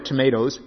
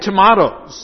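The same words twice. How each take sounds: First: Tomatoes is said with the American pronunciation. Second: Tomatoes is said with a non-American pronunciation.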